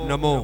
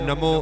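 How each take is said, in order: Both takes have the same delivery.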